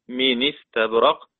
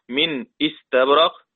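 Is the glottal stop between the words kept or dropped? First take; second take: dropped; kept. First: The words run together with no glottal stop. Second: A glottal stop separates the two words.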